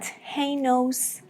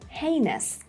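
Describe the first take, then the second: First: The stress is not on the first syllable. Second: The stress is on the first syllable. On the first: The speaker calls it wrong. "It's not heinous" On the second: The speaker calls it right. "The first part has the main stress"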